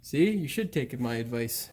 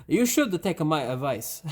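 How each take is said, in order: First: Put-on a slight Italian accent, a touch lower; lightly Italian-accented advice; hint of an Italian accent slipping in; accidental Italian accent. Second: Said in the usual way. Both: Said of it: "That sounded weird, like an Italian accent".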